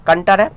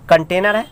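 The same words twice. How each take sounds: First: "कंटर" shortened to two syllables, kan-tar; colloquial pronunciation. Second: "कंटेनर" in three syllables, kan-te-nar; full pronunciation. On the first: Teacher showing students the village word, colloquial "कंटर". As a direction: drop the "ने" sound, saying "कंटर". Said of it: "कंटर, कंटर कहते हैं". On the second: Teacher giving students the proper word, full "कंटेनर". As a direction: keep the middle "टे" in "कंटेनर". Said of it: "कंटेनर होता है, लेकिन उसको कुछ लोग". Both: Shown as a demonstration.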